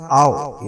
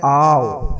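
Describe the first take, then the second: First: "आओ" as a short, quick glide; short diphthong. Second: "आओ" with the vowel held a little longer; slightly long diphthong. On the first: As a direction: keep "आओ" brief, ah straight into o. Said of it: "वहां पे पीछे वाला था आओ". ("आओ" छोटा, बिना खींचे) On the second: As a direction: stretch "आओ" slightly before it closes. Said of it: "long हो जाता है". ("आओ" थोड़ा लंबा खींचकर) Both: Shown as a demonstration.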